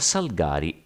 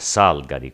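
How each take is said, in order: First: The stress is on the second syllable. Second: The stress is on the first syllable. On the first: The speaker calls it right. "è però quella corretta" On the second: The speaker calls it wrong. "con l'accento sulla prima sillaba è indubbiamente diffusa"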